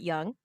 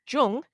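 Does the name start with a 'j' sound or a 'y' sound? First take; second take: y sound; j sound. First: The name starts with a y sound. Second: The name starts with a j sound. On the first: The speaker calls it wrong. "You don't pronounce it Young" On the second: The speaker calls it right. "You pronounce his last name, Jung"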